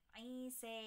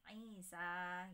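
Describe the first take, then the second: First: The final vowel is tilted toward 'e'. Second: The final vowel is a plain open 'a'. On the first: This is the reading when stopping on the word. "itu namanya wakaf Kisai" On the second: This is the ordinary reading without stopping. "dibaca seperti hafes biasa"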